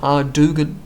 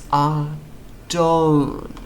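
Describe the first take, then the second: First: The name is said with a G sound. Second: The name is said with no G sound. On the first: The speaker calls it wrong. "so it's not Ardugan" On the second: The speaker calls it right. "The G is silent"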